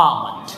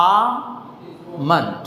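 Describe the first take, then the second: First: আমন্ড said quickly as "aa-mund", low and soft; correct pronunciation. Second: আমন্ড drawn out very slowly, "aaa... mund"; slow correct pronunciation. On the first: Teacher shows the lightly sounded vowel, correct pronunciation of আমন্ড. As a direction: drop আমন্ড low, L silent. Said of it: "সামান্য উচ্চারণ হয়". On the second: Teacher repeats it for learners, slow correct pronunciation of আমন্ড. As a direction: split আমন্ড into long "aa" and short "mund". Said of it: "আবার বলি". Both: Shown as a demonstration.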